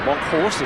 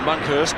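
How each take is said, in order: First: The second syllable sounds like 'horst'. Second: The second syllable sounds like 'hurst'. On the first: The speaker calls it right. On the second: The speaker calls it wrong.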